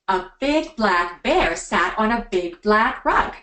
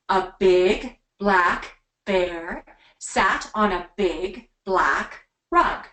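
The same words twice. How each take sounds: First: It is said at a quicker pace. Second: It is said at a slower, steady pace.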